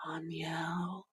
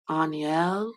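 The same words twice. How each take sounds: First: Soft unvoiced whisper of the name. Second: Said in the usual way. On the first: Real, not acted. Angel name whispered after plain take.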